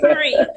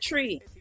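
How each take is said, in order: First: The word begins with a 'th' sound. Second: The word begins with a plain 't' sound. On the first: "I didn't say three" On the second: "did you hear that Jamaica just come out? I said tree"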